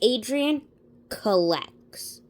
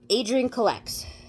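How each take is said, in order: First: The name is said more slowly. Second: The name is said quickly. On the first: The speaker calls it right. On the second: The speaker calls it wrong.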